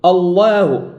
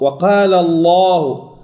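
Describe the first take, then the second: First: Wrong «الله»: heavy L sliding into a thin, fronted A; erro demonstrado. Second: Slow «وقال الله» with heavy L and equally dark long A; pronúncia correta. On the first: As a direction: start الله dark, then thin the long vowel. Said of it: "ولا نقول". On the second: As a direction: keep الله dark through the whole long vowel. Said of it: "اللام مفخمة". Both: Shown as a demonstration.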